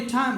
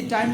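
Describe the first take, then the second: First: "টাইম" opening on a strongly aspirated t. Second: "টাইম" with no puff of air after the t; unaspirated T. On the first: Teacher offers students a choice, "টাইম" with aspirated t. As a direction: say "টাইম" with a puff of air, like thaim. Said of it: "তাহলে কি টাইম বলবো". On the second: Teacher offers students a choice, "টাইম" with unaspirated t. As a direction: say first "টাইম" with a plain, unaspirated t. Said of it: "নাকি টাইম বলবো". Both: Shown as a demonstration.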